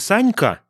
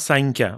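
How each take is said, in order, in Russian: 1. Звук к твёрдый, не смягчённый. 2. Звук к смягчён после н. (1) "Не санька" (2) "смягчает следующий за ним ке"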